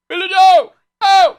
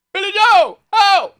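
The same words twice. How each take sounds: First: High shrieking shout; a shrill shouted Billy Joe callout; shouting the line. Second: High shrieking shout; shrill shouted callout; movie line shout. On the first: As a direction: belt it out at the top of your voice. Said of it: "I like to go". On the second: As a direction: yell it like the background extra. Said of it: "And then you hear". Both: Retold or imitated.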